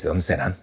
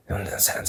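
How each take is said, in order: First: Said in the usual way. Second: Whispered wondering. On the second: Retold or imitated. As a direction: whisper it, voiceless and much softer. Wondering about strangers on bus. (susurrado, sin voz, preguntándose en secreto)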